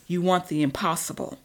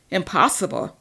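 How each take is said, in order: First: Said in the usual way. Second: Incredulous, louder repeat of Impossible; vampire scoffing at his rival's doubt; scoffing echo. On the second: Acted. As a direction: throw the word back mockingly. Marcus scoffs at the word.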